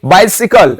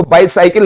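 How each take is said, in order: First: "बाइसिकल" with a short "si", bye-si-kal; correct bicycle pronunciation. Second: "बाइसाइकिल" with a long "sai", bye-sigh-kil; mispronounced bicycle. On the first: Teacher gives students the proper word, "बाइसिकल" as bye-si-kal. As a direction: keep the middle of "बाइसिकल" short, never "sigh". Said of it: "क्या बोलेंगे?". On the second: Teacher shows students what not to say, "बाइसाइकिल" as bye-sigh-kil. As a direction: say "बाइसाइकिल" as bye plus cycle. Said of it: "इसको बाइसाइकिल नहीं बोलेंगे". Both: Shown as a demonstration.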